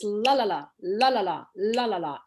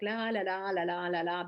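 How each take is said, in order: First: The syllables are short and separated in chunks. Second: The syllables flow together smoothly without breaks. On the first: This is how English speech sounds. "better staccato rhythm, which is inherent to the English speech" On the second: This is how Russian speakers sound. "we Russians sort of speak in a more smooth manner"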